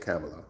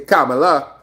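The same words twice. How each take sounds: First: The name is said the American way. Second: The name is said the Trinidadian way.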